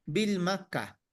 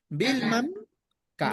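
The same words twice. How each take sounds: First: "Vilma K." with no M closing Vilma; "Vilma K." as bil-ma ka, the bare name plus ka; name without added M. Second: "Vilma K." said as bil-mam ka; "Vilma" with a final m, pause, then K as "ka"; M added to name. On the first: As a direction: say "Vilma" ending on an open a, then K as "ka". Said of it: "si sonaría un poquito faltando algo". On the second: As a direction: close "Vilma" on a hummed m before K, said "ka". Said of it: "si tu nombre termina en una vocal, vas a agregar la M". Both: Shown as a demonstration.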